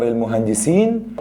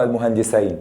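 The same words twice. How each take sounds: First: المهندسين ending in a long "-een"; plural reading. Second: المهندسين ending in "-ayn"; dual reading. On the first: Teacher giving the first reading, المهندسين ending "-seen". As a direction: say المهندسين with "ee" before the n. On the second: Teacher giving the second reading, المهندسين ending "-sayn". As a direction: say المهندسين with "ay" before the n. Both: Shown as a demonstration. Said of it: "تتقرأ إيه يا غالي؟".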